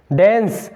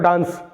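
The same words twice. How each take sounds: First: डांस said as "dens", with an "e" vowel; correct pronunciation. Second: डांस with a long "aa" vowel; mistaken pronunciation. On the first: Teacher drills the ending with students, डांस as "dens". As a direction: say डांस to rhyme with "ens". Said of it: "डेंस बोलना आज से". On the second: Teacher asks students why they say it so, डांस as "daans". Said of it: "इसको क्यों बोलते हो डांस". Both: Shown as a demonstration.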